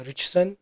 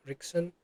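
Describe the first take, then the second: First: Richson, pronounced ritch-son; first attempt at the name; first try. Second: Richson said with a hard k, "rick-son"; Richson, corrected to rick-son; second try, fixing the name. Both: Shown as a demonstration.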